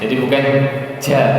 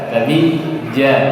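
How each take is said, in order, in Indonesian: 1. Konsonan itu dilepas dengan hembusan napas. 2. Konsonan itu dilepas dengan napas ditahan. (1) "bukan ja" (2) "aliran nafas ditahan"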